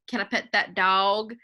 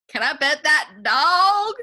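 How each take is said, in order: First: The question sounds the least excited. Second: The question sounds somewhat more excited.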